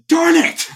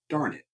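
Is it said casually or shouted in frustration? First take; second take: shouted; casually. First: It is shouted with upset frustration. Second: It is said casually and calmly.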